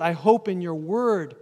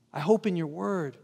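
First: Said in the usual way. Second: I hope in your word, echoed softer; quiet echo of the verse for the congregation; soft reflective repeat. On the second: Shown as a demonstration. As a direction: let the verse sink in gently.

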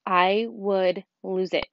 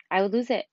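First: Drawn out, stress on I; slow, heavy "I would lose it"; slow emphatic. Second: Said in the usual way. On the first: Shown as a demonstration. Admitting her temper to parents, slowly.

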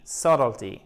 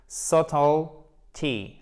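First: Subtlety in one piece, SUT stressed, falling away; joined-up stress demo. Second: Subtlety very slowly, split as SUT-ul, then tee; syllable-by-syllable stress demo. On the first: Teacher modelling the whole word for learners, joined-up stressed first syllable. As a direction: say subtlety unbroken, weight on the first syllable, silent b. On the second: Teacher breaking the word down for learners, slow syllable demo. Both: Shown as a demonstration. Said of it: "vous accentuez cette syllabe".

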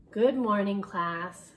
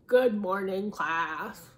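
First: A touch of grump, loud then dropping; grumpy. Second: Grumpy voice. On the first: A narrator's reading. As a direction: grumble it at the class. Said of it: "in an unusually grumpy voice". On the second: Shown as a demonstration. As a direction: really grumble the hello. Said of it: "Is that a good grumpy voice?".

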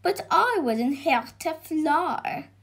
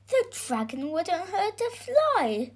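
First: Higher, lightly voiced dragon; protesting dragon. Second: Put-on high, earnest boy's voice; defending boy. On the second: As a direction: plead the dragon's case as the boy. Boy defends the dragon to George. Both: A narrator's reading.

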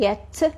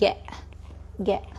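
First: "get" ending in a clear, released T; full T sound. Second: "get" with the final T swapped for a glottal stop like hamza. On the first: Teacher shows the usual ending before the trick, full T. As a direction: say "get" with the final T fully pronounced. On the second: Teacher shows Arabic students the hamza T, glottal stop. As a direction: cut "get" off in the throat, no T released. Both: Shown as a demonstration. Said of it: "وهيدي ال T فيك تلفظها كهمزة".

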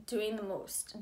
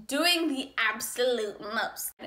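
First: Said in the usual way. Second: Slow, emphatic "absolute most"; emphatic repeat. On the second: Acted. Telling friends about the ex, drawn-out emphasis on "absolute most". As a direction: lean on "absolute" and stretch "most".

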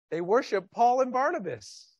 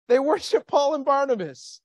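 First: Said in the usual way. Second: Louder, punching worship; emphatic repeat. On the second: Shown as a demonstration. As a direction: hammer the point home the second time.

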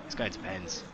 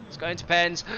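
First: Said in the usual way. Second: "It's going to pens" sung out higher and louder; excited higher call. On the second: Real, not acted. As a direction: shout it like you're sure. Excited repeat of prediction.

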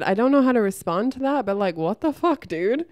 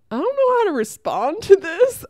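First: Firmer retelling. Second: Much higher and louder, incredulous; higher, louder disbelief at a bully in the sauna; stunned disbelief. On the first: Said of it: "I said, I said". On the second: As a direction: react as if you can't believe what you just heard. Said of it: "I was just like". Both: Retold or imitated.

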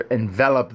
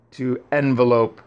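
First: "envelop" said as en-VEL-op, stress on the middle; "envelop" fixed to the verb form, en-VEL-op; "envelop" with a short final op, not lope; corrected pronunciation. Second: "envelope" said like the noun, EN-ve-lope; "envelope" slipped as the noun form; "envelope" misread with the noun sound; mispronounced word. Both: Shown as a demonstration. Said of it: "rather, envelop".

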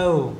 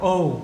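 First: British "oh", starting from a central vowel. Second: American "oh", a rounded o gliding to u. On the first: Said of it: "Người Anh đọc là oh". (đọc "oh" giọng Anh) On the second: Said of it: "Người Mỹ đọc oh". (đọc "oh" giọng Mỹ) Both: Shown as a demonstration.

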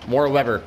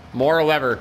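The two takes are said the same way.

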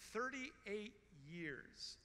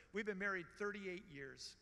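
First: Drawn out slowly, each word weighed; slow stress on "Thirty-eight"; slow emphatic repeat. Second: Said in the usual way. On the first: Acted. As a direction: let thirty-eight years sink in, very slowly.

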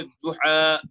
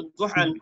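First: দুহা ending on a long open "aa", no n; stopping form. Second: দুহান closed with a final "n"; দুহান as read without the stopping form; full form with n. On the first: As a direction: pause on দুহা, dropping the final "n". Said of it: "থেমে পড়বো". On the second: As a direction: say "du-han", sounding the n ending. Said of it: "উচ্চারণ হবে দুহা". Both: Shown as a demonstration.

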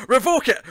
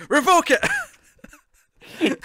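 First: High, loud comic demand; mock shout. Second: Very high, very slow, loud stretched-out scream; drawn-out mock scream. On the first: Fan ordering the writers to revoke it, loud mock shout. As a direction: bark the order at the screen. Ranting at the screen. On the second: Fan's hammed-up climax at the screen, long high scream. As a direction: stretch it into an over-the-top wail.

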